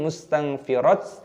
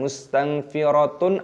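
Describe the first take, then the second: First: The word ends with a short 't' sound. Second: The word ends with a full 'tun' sound. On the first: "ataupun mustanfirat" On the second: "bukan mustanfiratun"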